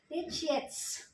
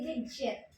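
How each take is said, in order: First: The word ends with a final s sound. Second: The word ends without a final s sound. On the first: The speaker calls it right. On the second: The speaker calls it wrong.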